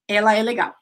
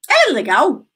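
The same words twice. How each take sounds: First: It is a statement with a falling tune. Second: It is a question with a rising tune.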